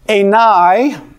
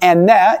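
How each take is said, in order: First: It is said in a traditional, non-modern pronunciation. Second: It is said in the modern Greek pronunciation.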